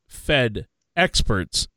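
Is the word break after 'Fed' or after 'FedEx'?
after Fed. The break falls after 'Fed', before 'experts'. It refers to Federal Reserve experts. The speaker calls it right. "you meant Fed experts"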